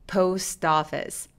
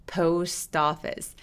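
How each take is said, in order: First: The two words are linked into one. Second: The two words are linked into one.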